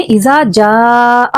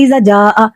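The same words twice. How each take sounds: First: इज़ा जा with the long vowel drawn out slowly; इज़ा जा recited with full madd length; stretched madd. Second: इज़ा जा said quickly with a short vowel; इज़ा जा with the madd cut short, as a mistake; clipped madd. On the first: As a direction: hold the आ of जा for three or four counts. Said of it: "एक से तीन या चार अलिफ के बराबर खींच कर पढ़ेंगे". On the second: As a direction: rush इज़ा जा without stretching it. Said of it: "इसको इज़ा जा बस नॉर्मल पढ़ देंगे". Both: Shown as a demonstration.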